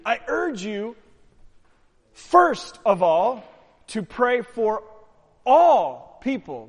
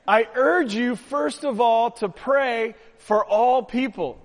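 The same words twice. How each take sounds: First: "first" and "all" drawn out slow and loud; stress on FIRST and ALL. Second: Said in the usual way. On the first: Shown as a demonstration. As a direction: lean hard on "first of all" and "all people". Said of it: "What does Paul say to Timothy?". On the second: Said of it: "what does the word say".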